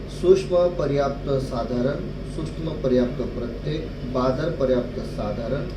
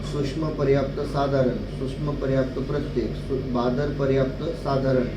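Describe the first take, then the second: Both takes have the same delivery.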